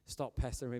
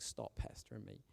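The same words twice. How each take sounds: First: Said in the usual way. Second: Breathy whispered mock complaint. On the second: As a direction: whisper it like an imagined grumble. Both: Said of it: "she must have been like".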